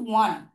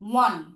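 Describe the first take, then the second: No difference in how they are said.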